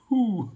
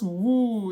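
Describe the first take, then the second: First: The word begins with an h sound. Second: The word begins with a w sound. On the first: The speaker calls it right. "it's supposed to just be like an H U, a who" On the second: The speaker calls it wrong. "I've always pronounced that word as woo, like W U"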